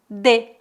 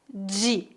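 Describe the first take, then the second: First: It is said the Southern Brazilian way. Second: It is said the Southeastern Brazilian way. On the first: "em algumas cidades do Sul, as pessoas pronunciam de" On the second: "A pronúncia mais comum na região sudeste"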